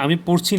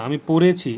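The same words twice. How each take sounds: First: "পড়ছি" said with no এ before ছি; form without e. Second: "পড়েছি" with a clear এ before ছি; stressed e sound. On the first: Teacher giving the rejected form, "পড়ছি" without the এ. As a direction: run "পড়" straight into "ছি". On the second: Teacher correcting the form, stressed এ in "পড়েছি". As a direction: punch out "পড়েছি", sounding the middle এ. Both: Shown as a demonstration. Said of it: "এ উচ্চারণ দেখা যাচ্ছে".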